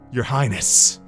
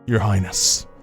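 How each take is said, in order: First: The voice sounds fairly normal and unchanged. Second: The voice sounds weak, low and dying. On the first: "That's not much of a fuckboy voice" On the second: "He just sounds like he's kind of dying"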